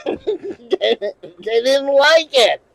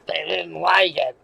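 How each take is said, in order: First: Stretched out slowly through laughter; can't hold back the laugh. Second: Said in the usual way. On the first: Real, not acted. Laughing while retelling reaction.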